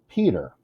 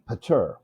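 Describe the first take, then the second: First: The stress is on the first syllable. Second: The stress is on the second syllable. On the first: The speaker calls it right. "The first syllable is stressed" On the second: The speaker calls it wrong. "If the accent was on the second syllable, it would be pater"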